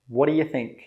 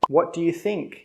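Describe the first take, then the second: First: The phrase is said very fast and run together. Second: The phrase is said at a normal, careful speed.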